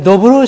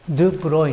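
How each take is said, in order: First: The first syllable is a plain 'do' sound. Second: The first syllable is a rounded 'du' sound.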